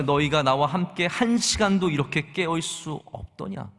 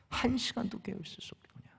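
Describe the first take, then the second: First: Said in the usual way. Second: Hushed, breathy whisper, much softer. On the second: Acted. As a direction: whisper the rebuke as if leaning in close. Quotes Jesus, then repeats it whispered. (속삭이듯 조용히)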